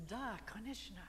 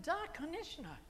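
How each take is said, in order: First: Said in the usual way. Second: High-pitched, emphatic Russian yes; energetic Russian. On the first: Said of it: "what it sounds like in Russian". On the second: Shown as a demonstration. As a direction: affirm it eagerly, pitched well up. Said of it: "the energy is the same in all those languages".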